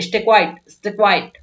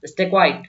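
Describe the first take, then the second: First: A touch of anger, demonstrated; mock-annoyed command to hush; slightly angry. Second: Said in the usual way. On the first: Shown as a demonstration. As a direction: say it as a mildly cross order. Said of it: "थोड़ा गुस्से में बोलते हैं, तो ऐसे बोलोगे". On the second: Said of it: "थोड़ा गुस्से में बोलते हैं".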